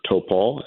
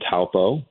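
First: It is said the local way. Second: It is said the non-local way. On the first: The speaker calls it right. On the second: The speaker calls it wrong.

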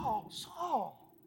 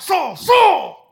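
First: It is said tenderly, with deep emotion. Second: It is said angrily, like barking a command.

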